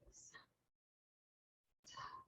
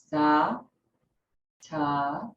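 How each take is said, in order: First: The sounds are whispered without full voice. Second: The sounds are spoken aloud in a normal voice. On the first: "just whisper the sounds" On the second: "verbalizing the sounds"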